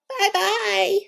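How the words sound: It is said in a high, squeaky voice.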